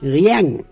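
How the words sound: It is said in Westphalian, with a diphthong.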